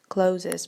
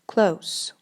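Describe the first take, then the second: First: The word is said with two syllables. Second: The word is said with one syllable. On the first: The speaker calls it wrong. "many people say closes, but this is not correct" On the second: The speaker calls it right. "the E before the last letter S in this word here is silent, which is why you should say close"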